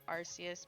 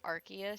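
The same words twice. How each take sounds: First: The name starts like British 'arse'. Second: The name does not start like British 'arse'. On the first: This is the natural pronunciation people were told to avoid. "it sounds too much like how British people say ass" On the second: This is the officially recommended pronunciation. "they told everyone to pronounce it"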